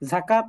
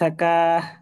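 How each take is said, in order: First: The word ends with a t sound. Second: The word ends with an h sound. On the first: This is how the word is written. "যাকাত লেখা" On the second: The reader stops on this word. "অক্ষর সময় যাকাহ পড়ি"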